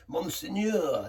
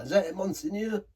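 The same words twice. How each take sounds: First: Slow, drawn-out mock French Monseigneur; mock French word. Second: Higher, asking Monseigneur in a hammed-up French accent; mock French question. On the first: Reviewer fumbling for a French word, slow mock French. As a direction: savour Monseigneur like a hammed-up Frenchman. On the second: Reviewer checks his French, higher mock French question. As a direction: try Monseigneur again as a light French quip. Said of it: "Something like that".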